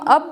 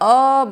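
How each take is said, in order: First: The word is said short and plain. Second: The word is drawn out with emphasis.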